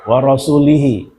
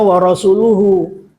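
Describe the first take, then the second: First: The word ends with i-vowels, sounding rasulihi. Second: The word ends with u-vowels, sounding rasuluhu. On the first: God disowns the idolaters and also his messenger. The speaker calls it wrong. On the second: God and his messenger both disown the idolaters. The speaker calls it right. "yang benar bacanya"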